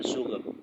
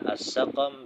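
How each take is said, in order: First: A u vowel, then no vowel: suqm. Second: Both syllables have an a vowel: saqam. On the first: "dengan dhammah pada huruf sinnya lalu sukun pada huruf qafnya" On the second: "dengan dua fathah, yaitu di huruf sin dan huruf qaf"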